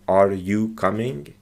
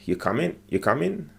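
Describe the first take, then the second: First: Slow, fully worded "Are you coming?"; careful, slow textbook question; full careful form. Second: Quick casual "You coming?" with a dropped g, "comin'"; relaxed spoken question, ending "comin'"; casual clipped form. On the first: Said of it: "he didn't say". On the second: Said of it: "just a simple". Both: Shown as a demonstration.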